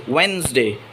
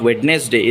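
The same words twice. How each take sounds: First: "Wednesday" said as WENZ-day; silent D. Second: "Wednesday" said as WED-nes-day; mispronunciation. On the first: Teacher giving the correct word, "Wednesday" as wenz-day. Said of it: "We don't have to say the first da". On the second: Teacher showing what not to say, "Wednesday" as wed-nes-day. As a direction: sound the first d in "Wednesday". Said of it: "It is not Wednesday". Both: Shown as a demonstration.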